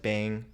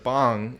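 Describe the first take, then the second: First: The vowel is a front 'a' sound. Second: The vowel is an open 'ah' sound.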